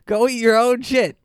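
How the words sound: It is said forcefully, with conviction.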